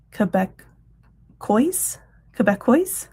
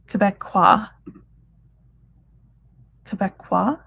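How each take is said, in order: First: Quebecois said kuh-bek-OYS, sounding the final s, slow and questioning; unsure pronunciation. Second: Quebecois said kuh-bek-WAH, with a silent final s; French-style pronunciation. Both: Shown as a demonstration. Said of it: "I'll have to look that up to say exactly how to say it".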